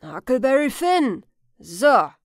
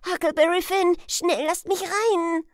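First: Put-on loud old man's questioning echo; skeptical repeat. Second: Put-on high, loud, frantic boy's plea; urgent announcement. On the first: Old man weighing the boy's name, loud skepticism. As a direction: throw the name back with a falling, doubtful tone. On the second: Huck at the door to the old man, urgent high shout. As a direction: shout your name and beg entry. Huck names himself, begs entry.

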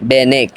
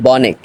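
First: "বেনেক" with e in the first syllable; wrong pronunciation. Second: "বনেক" with o in the first syllable; correct pronunciation. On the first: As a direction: start "বেনেক" with be. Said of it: "এটা হলো ভুল উচ্চারণ". (প্রথমে এ-কার দিয়ে ভুল "বেনেক") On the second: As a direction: start "বনেক" with bo, not be. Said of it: "সঠিক উচ্চারণ হলো". (প্রথমে অ-ধ্বনি দিয়ে সঠিক "বনেক") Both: Shown as a demonstration.

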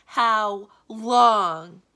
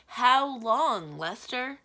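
First: Very loud, drawn-out cry of despair; big theatrical wail, raised in pitch; desperate wail. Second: Loud, higher-pitched plea; acted despair, crying out to a servant; desperate cry. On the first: A narrator's reading. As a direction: bellow it in despair, stretching each word. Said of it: "waved his arms in desperation". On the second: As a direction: call it out in despair, high and loud. Wizard despairs to his servant.

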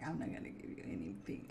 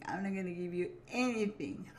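First: A hint of a grumpy cow in a whisper. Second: Said in the usual way. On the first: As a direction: lower whispered voice for the sulky cow. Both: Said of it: "She's like".

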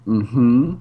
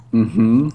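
The two takes are said the same way.

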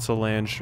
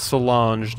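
First: "Solange" with a short a, so-LANJ; mistaken pronunciation. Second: "Solange" with an ah, so-LAHNZH; corrected pronunciation. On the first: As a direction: say "Solange" to rhyme with flange. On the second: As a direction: say "Solange" French-style, second vowel as in father. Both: Shown as a demonstration. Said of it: "I've been saying Solange".

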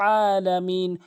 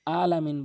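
First: আলামিন opened with a mid-throat ain; strong throaty ain starting আলামিন; correct ain. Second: আলামিন with a plain vowel onset; আলামিন starting on a simple hamza; common mispronunciation. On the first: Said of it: "হলকের মাঝখান থেকে". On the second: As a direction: say আলামিন quickly, no throat ain. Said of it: "আলামিন ভুল হচ্ছে". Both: Shown as a demonstration.

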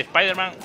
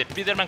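First: "Spiderman" said as es-PIE-der-man; English vowel in "Spiderman", like "spy"; English-style Spiderman. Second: "Spiderman" said as es-PEE-der-man; Spanish reading of "Spiderman", with an ee; Spanish-style Spiderman. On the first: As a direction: say "Spiderman" with an "espai" sound. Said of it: "Se dice Spiderman". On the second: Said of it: "pues no se dice Spiderman". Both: Shown as a demonstration.

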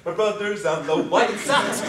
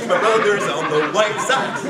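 First: Excited cheer. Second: Louder, laughing through the cheer. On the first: Repeated celebration chant. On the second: Sibling repeating the news, laughing cheer. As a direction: let the joy spill into laughter. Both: Retold or imitated.

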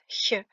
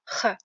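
First: "ch" as a soft palatal hiss, as before i; soft sound demo. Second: "ch" raspy at the back, as in Juan; hard sound demo. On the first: Teacher contrasting contexts for learners, soft palatal "ch". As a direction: make "ch" light and forward. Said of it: "elle se prononce ch". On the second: Teacher contrasting contexts for learners, back-of-throat "ch". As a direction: make "ch" from the throat. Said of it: "comme dans Juan". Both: Shown as a demonstration.

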